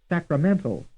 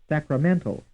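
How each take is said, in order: No difference in how they are said.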